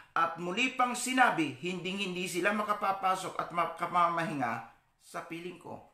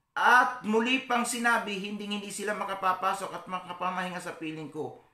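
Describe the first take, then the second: The two takes are said the same way.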